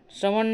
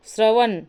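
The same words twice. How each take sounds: First: श्रवण ending in retroflex ṇ; correct form. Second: श्रवण ending in dental n, "shravan"; plain n at the end of श्रवण; wrong form. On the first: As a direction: curl the tongue to end the last श्रवण. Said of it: "श्रवण होगा". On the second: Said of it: "श्रवण में श्रवण होगा". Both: Shown as a demonstration.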